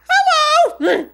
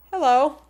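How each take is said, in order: First: A tiny high squeaked hello, much louder. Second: Said in the usual way. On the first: Retold or imitated. Fan meets her idol and squeaks hello. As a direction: squeak it out starstruck. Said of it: "and I squeak out". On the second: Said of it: "I mean".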